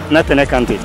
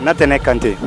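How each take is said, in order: Both takes have the same delivery.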